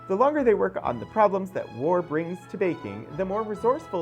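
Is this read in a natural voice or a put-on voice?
natural. It is read in a normal, natural voice. It is simply read aloud without imitating anyone. "I'm just gonna do a regular voice instead"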